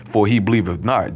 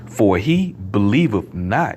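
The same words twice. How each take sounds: First: It is read quickly and mumbled. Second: It is read slowly and clearly. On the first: The speaker calls it wrong. "I'm gonna mumble up that scripture" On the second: The speaker calls it right. "Let me slow it down"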